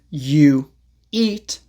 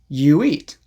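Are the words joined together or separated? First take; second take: separated; joined. First: The words are separated by a break. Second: A small w sound links the words. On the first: "instead of saying" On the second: "a very small W sound"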